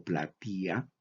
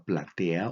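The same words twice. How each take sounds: First: "platía" with an EE sound before the final A; pronunciación con i. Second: "platea" with a clear E before the final A; pronunciación con e. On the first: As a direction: say "platía", stressing the I. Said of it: "platea o platía". ("platía" con i tónica en vez de e) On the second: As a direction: say "platea", sounding the E. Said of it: "la palabra platea o platía". ("platea" con e clara antes de la a) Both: Shown as a demonstration.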